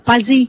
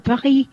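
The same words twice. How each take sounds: First: The name is said with a Vietnamese pronunciation. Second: The name is said with a French pronunciation. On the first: "anh nói theo tiếng Việt Nam anh nói là Paris" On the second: "theo kiểu tiếng Pháp mình nói là Paris"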